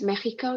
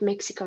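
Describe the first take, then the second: First: The word is pronounced the Spanish way. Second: The word is pronounced the English way. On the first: "pronounced Mexico in Spanish" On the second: "but Mexico in English"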